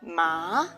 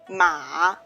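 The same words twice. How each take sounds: First: The pitch rises from mid to high. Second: The pitch dips low and then rises. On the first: "The second tone is rising" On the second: "it's a falling rising tone, or the dipping song, dipping tone"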